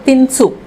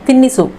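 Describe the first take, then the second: First: The middle i vowel is dropped entirely. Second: The middle i vowel is pronounced in full. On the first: This is the everyday spoken form. "Spoken में बोलते हैं तिनसु, इधर ई मात्रा skip करेंगे" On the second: This is the full form of the word. "खिला दो इसको तिन्निसु बोलते हैं"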